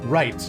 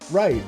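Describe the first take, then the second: First: It is said in a lower voice. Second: It is said in a higher voice.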